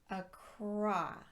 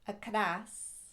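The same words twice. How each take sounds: First: The R is made with rounded, pushed-out lips. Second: The R is a quick tap of the tongue. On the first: The speaker calls it right. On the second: The speaker calls it wrong.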